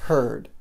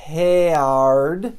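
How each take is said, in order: First: "Heard" as one syllable, the R serving as vowel; short "Heard" built on a strong R; correct pronunciation. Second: "heard" stretched into "he-ard", both vowels sounded; exaggerated wrong "heard" with a clear E-A before the R; mispronounced vowel. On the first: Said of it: "Essa pronúncia". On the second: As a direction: say "heard" wrongly as a long, loud "heh-ard". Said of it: "Não é heard". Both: Shown as a demonstration.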